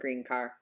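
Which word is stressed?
green. The word green gets the higher pitch. The speaker calls it wrong. "We don't say green car"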